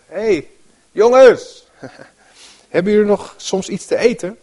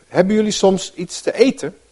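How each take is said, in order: First: Much higher and louder "Hey, jongens", chatty and laughing; casual mock call. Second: Said in the usual way. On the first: Shown as a demonstration. Preacher playing Jesus hailing friends, breezy and laughing. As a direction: call out to the boat like to mates. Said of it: "In de andere vertalingen staat eerst nog wel van". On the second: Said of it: "In de andere vertalingen staat".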